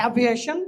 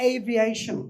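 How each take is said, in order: First: Aviation said the common wrong way, ah-viation; wrong pronunciation. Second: Aviation said slowly and carefully, ay-vee-ay-shun; correct pronunciation. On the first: Teacher to students, mimicking the wrong aviation. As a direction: show students the mistaken aviation. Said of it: "এই ওয়ার্ডটার উচ্চারণ is not aviation". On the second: Teacher to students, modelling correct aviation slowly. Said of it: "is not aviation, is aviation". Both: Shown as a demonstration.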